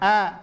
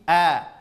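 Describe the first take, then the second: First: The vowel is pushed through the nose. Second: The vowel comes purely from the throat. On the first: The speaker calls it wrong. "jangan a" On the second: The speaker calls it right. "dia murni dari murni dari pangkal tenggorokan"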